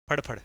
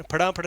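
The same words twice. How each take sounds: First: फड़फड़ said as two quick even beats, no vowel between; correct pronunciation. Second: फड़ाफड़ with a long आ stretched in the middle; wrong pronunciation. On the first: Teacher showing students the right sound of फड़फड़, two quick beats. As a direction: say फड़फड़ short and tight, फड़ फड़. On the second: Teacher showing students the wrong way to say it, stretched फड़ाफड़. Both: Shown as a demonstration. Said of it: "फड़ाफड़ नहीं".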